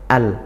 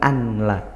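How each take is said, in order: First: The n merges fully into the l. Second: The n is pronounced separately before the l. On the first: The speaker calls it right. "langsung melebur ke huruf lamnya" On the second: The speaker calls it wrong. "bukan an la"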